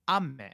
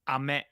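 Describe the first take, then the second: First: The 'a' vowel is said with extra emphasis. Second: The 'a' vowel is said plainly.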